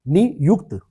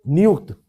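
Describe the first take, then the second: First: नियुक्त broken as "नि - युक्त"; split into syllables. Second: Said in the usual way. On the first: Shown as a demonstration. Teacher spelling out a word for the class, नियुक्त in split syllables. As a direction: say नियुक्त in two parts, ni, then yukt. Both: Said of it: "नियुक्ति वाला नियुक्त".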